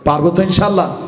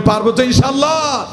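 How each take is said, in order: First: Said in the usual way. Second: Raised, higher call to the crowd; loud rallying repeat; louder call. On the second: Shown as a demonstration. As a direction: push it out louder for the audience. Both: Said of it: "জোরে বলেন".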